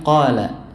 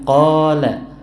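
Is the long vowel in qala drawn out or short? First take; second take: short; drawn out. First: The long vowel is kept short, matching quick speech. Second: The long vowel is stretched out noticeably longer. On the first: The speaker calls it right. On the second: The speaker calls it wrong.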